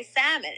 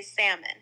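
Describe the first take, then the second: First: "salmon" in the local way, no L; our local salmon. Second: "salmon" with silent L; most people's salmon. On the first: Contrasting with most people, our local salmon. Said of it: "But we will say salmon". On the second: Telling a friend how most people say it, most people's salmon. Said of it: "most people say salmon". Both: Shown as a demonstration.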